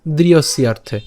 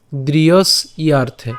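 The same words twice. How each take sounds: First: দৃঢ়স্যার্থে run together in one smooth word; joined syllables. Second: দৃঢ়স ইয়ার্থে said slowly in two parts; split syllable demo. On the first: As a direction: blend দৃঢ়স্যার্থে into a single flow. (একসাথে দৃঢ়স্যার্থে) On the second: (ধীরে ভেঙে দৃঢ়স ইয়ার্থে) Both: Shown as a demonstration. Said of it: "একসাথে বললে".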